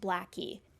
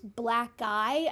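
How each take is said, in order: First: The name ends with an 'ee' sound. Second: The name ends with an 'eye' sound. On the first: The speaker calls it wrong. "I like Blackie better" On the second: The speaker calls it right. "whatever that person's last name was and then I"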